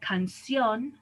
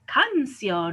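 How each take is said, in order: First: The stress is on the last syllable. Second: The stress is on the first syllable. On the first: The speaker calls it right. "stresses the last syllable" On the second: The speaker calls it wrong. "we should say actually canción or mama, but we don't"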